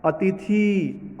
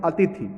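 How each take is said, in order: First: अतिथि with a slow, long-held "theee" at the end; long final vowel. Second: अतिथि said quickly with a short final "thi"; short final vowel. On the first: Teacher showing the wrong reading, long final vowel. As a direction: drag out the last vowel of अतिथि. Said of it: "अतिथि गलत होगा". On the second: Teacher giving the correct reading, short final vowel. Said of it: "क्या होना चाहिए". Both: Shown as a demonstration.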